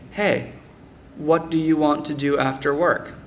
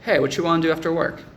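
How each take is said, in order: First: Each word is pronounced clearly and separately. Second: The words are reduced and run together. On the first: The speaker calls it right. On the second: The speaker calls it wrong.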